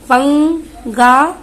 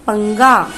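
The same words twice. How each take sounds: First: 'पंगा' slow, syllable by syllable, rising at the end; slow syllable reading. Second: Said in the usual way. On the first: Shown as a demonstration. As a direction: sound out पंगा for the class. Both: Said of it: "अब यहाँ पर".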